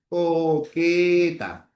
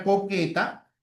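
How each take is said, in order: First: "Coqueta" very slow, each syllable stretched out. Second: Said in the usual way. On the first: Shown as a demonstration. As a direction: sound out "Coqueta" slowly for a class. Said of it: "La transcripción sería así".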